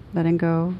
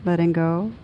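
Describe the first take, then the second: No difference in how they are said.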